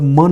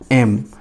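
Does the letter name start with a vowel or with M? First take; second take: with M; with vowel. First: It starts with an m sound, like ma. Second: It starts with a vowel sound, like em. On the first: The speaker calls it wrong. "हम लोग म नहीं कह रहे हैं इसे" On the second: The speaker calls it right. "हम कह रहे हैं एम। ए से स्टार्ट हो रही है"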